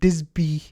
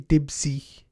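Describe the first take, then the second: First: The s sound comes before the b sound. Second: The b sound comes before the s sound. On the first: The speaker calls it wrong. "I've been saying it wrong the whole time" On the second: The speaker calls it right. "but it's actually Dibsy"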